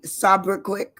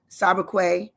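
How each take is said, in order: First: Slow "sobriquet" with the final consonant sounded; hard-ending pronunciation. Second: "sobriquet" with a silent final T, lifting at the end; silent-T pronunciation. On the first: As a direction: say "sobriquet" as SOB-ruh-kwik. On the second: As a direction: say "sobriquet" as SOB-ruh-kway. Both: Shown as a demonstration. Tries two pronunciations of word.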